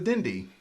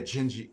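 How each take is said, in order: First: The word begins with a d sound. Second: The word begins with a j sound. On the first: The speaker calls it wrong. "nah, that's that's wrong" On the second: The speaker calls it right. "But Portuguese, it's the D is"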